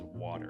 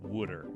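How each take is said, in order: First: It is said with a standard American vowel and t. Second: It is said with an oo vowel and d sound. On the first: "every single person on the face of the earth, United States, says water" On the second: "If you're from Philadelphia, you say wooder"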